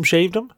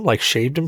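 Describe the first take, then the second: First: "shaved him?" with a high, rising incredulous tune; incredulous stress. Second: Said in the usual way. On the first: Shown as a demonstration. Host asks the friend in disbelief, rising high on "shaved". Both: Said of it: "Oh, you shaved him?".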